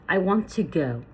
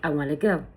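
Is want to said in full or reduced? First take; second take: full; reduced. First: Want to is said as two full words. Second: Want to is shortened to wanna.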